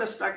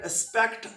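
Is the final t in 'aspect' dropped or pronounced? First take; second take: dropped; pronounced. First: The final t is almost not pronounced. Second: The final t is clearly pronounced. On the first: "अब जो आखिरी टी है इसको मैंने तकरीबन" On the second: "अब मैंने केयरफुल डेलिब्रेटली केयरफुल प्रोनाउंस किया है टी"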